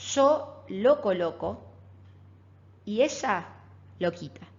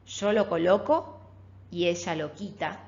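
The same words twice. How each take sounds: First: It is said with pauses inside the sentence. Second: It is said smoothly without internal pauses.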